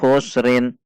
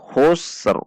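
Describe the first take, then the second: First: The word ends with an added -in sound. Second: The word stops on a bare final r. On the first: The speaker calls it wrong. "kesalahan yang sering terjadi" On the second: The speaker calls it right. "Ketika waqaf maka ini dibaca waqaf"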